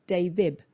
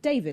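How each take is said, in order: First: The final D becomes a B sound. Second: The word ends with a clear D sound. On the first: The speaker calls it wrong. "I'm missing off the D and doing a B instead" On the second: The speaker calls it right. "I say a D on the end of David, like there should be"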